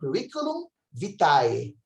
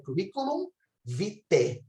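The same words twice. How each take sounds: First: The end of vitae is not an e sound. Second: The end of vitae is an e sound. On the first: "na pronúncia erasmiana, é curriculum vitae" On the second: "na pronúncia eclesiástica, é curriculum vitae"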